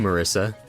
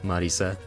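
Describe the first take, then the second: First: The name is said with English pronunciation. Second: The name is said with Japanese pronunciation. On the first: The speaker calls it wrong. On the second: The speaker calls it right.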